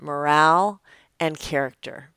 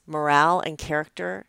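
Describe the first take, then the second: First: A light imitation of grandpa's Serbian accent, "Moral" a little louder; thick Serbian accent. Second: Said in the usual way.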